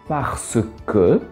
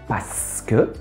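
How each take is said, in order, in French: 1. Chaque syllabe est prononcée pleinement et distinctement. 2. Les syllabes sont omises et enchaînées rapidement.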